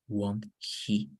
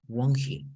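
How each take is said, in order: First: The stress falls on the word he. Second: The stress falls on the word won't. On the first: The speaker calls it wrong. "So you don't read won't he" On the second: The speaker calls it right. "The emphasis is on the auxiliary verb"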